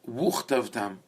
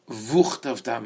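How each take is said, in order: First: The word begins with a w sound. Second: The word begins with a v sound. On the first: The speaker calls it right. "you say wuchtavtam" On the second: The speaker calls it wrong. "you don't say vuchtavtam"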